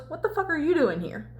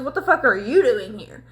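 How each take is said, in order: First: Lightly voiced challenge, higher and softer; retold challenge. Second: "YOU" punched in a mock retort; imitated comeback, "you" emphasized; retort with stress on YOU. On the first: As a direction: imitate a confronting question, emphasis off YOU. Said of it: "Cal goes". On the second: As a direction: throw the question back, hitting "you". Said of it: "And then Dorian goes".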